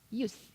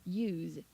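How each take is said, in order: First: The word ends in a hissing s sound. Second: The word ends in a buzzing z sound. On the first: The word is used as a noun. "이렇게 하시면 명사예요" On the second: The word is used as a verb. "z 발음을 하시면 동사고요"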